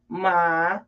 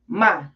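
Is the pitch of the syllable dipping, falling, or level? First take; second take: dipping; falling. First: The pitch dips low and then rises. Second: The pitch falls sharply from high to low. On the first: It marks a question. "which is third tone" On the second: It is an exclamation. "last tone, fourth tone"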